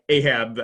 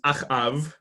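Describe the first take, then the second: First: The name is said in its English form. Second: The name is said in its Hebrew form. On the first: "if you pronounce this guy Ahab, I suppose that's okay too" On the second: "in Hebrew, he's Achav"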